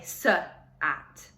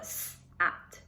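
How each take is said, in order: First: The s is followed by a short 'uh' vowel. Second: The s is said bare, with no added vowel. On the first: The speaker calls it wrong. "if you say s at" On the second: The speaker calls it right. "if you lose the uh"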